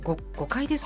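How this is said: It sounds like a hesitant, flustered excuse.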